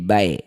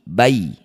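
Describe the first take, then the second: First: The syllable ends with an e sound. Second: The syllable ends with an i sound. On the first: The speaker calls it wrong. "bukan e jadi bae, bukan" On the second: The speaker calls it right. "Ya sukunnya berikan huruf vokal i"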